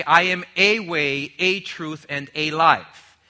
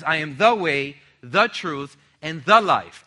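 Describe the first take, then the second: First: "a" said as a full "ay" each time; slow, weighted "a" before each noun; stress on a. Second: "the" punched as "thuh" each time; firm weight on every "the"; stress on the. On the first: Preacher showing what Jesus did not say, stressing "a". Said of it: "Jesus does not say". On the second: Preacher showing Jesus' exclusive claim, stressing "the". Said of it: "Emphasize that in your notes". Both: Shown as a demonstration.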